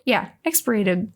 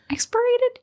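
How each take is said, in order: First: Said in the usual way. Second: Expirated? asked high and hesitant; unsure rising question. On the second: Shown as a demonstration. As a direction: try the word expirated? doubtfully.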